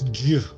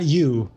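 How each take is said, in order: First: It is said in a Slavic accent. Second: It is said in a plain English accent. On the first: The speaker calls it right. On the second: The speaker calls it wrong. "It's not you"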